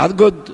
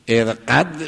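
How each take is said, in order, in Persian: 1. حرف میانی صدای «گ» سخت است. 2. حرف میانی صدای «ق» عقبی است. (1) "میگه ارگد"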